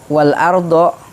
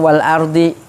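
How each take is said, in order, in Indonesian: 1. Kata itu diakhiri dengan vokal 'o'. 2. Kata itu diakhiri dengan vokal 'i'. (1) "harusnya wal ardo" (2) "cuma dibaca wal ardi"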